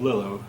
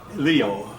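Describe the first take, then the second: First: The second consonant sounds like an L. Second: The second consonant sounds like a Y. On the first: The speaker calls it wrong. "instead of" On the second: The speaker calls it right. "the L is pronounced like a Y"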